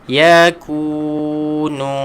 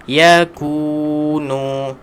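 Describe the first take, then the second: Both takes have the same delivery.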